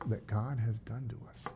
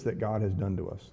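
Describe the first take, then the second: First: Much softer repeat of the verse; hushed pointed echo. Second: Said in the usual way. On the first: Retold or imitated. Pastor repeats the brothers' words to question them, hushed pointed echo. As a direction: echo it under your breath, pointedly. Repeats read line as aside.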